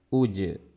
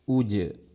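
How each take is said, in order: Both takes have the same delivery.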